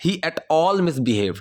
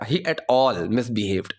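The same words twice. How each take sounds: First: Said in the usual way. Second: At all pressed a little harder; stress on at all. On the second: Shown as a demonstration. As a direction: lean on at all. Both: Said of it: "उसके ऊपर थोड़ा सा ना pressure देना पड़ेगा".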